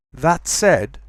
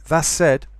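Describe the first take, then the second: First: THAT SAID with a clear T before S; full form. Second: THAT SAID as thas said; quick assimilation. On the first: Teacher gives recommended form, clear T in THAT SAID. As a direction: keep the T ending THAT. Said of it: "best way to pronounce it". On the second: Teacher shows very quick speech, thas for THAT. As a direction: turn the T of THAT into an S. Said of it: "happens in very, very quick speech". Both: Shown as a demonstration.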